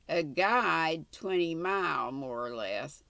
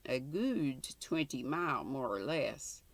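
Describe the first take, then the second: First: "guide" with a long i, the reader's first try; "gude" as guide. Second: Corrected dialect word, sounded as "good"; "gude" as good. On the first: Old man giving the distance, "guide" said with a long i. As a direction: say "guide" in "A guide twenty mile". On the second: Old man giving the distance, "good" in place of "guide". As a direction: say "good" in "a good twenty mile". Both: Shown as a demonstration. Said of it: "sounds like a Scottish accent".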